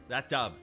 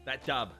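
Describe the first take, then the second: No difference in how they are said.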